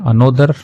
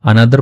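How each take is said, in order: First: The second vowel sounds like an 'oh'. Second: The second vowel sounds like a short 'uh'. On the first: The speaker calls it wrong. "अनोदर नहीं पढ़ते हैं" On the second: The speaker calls it right. "इसको अनदर पढ़ते हैं"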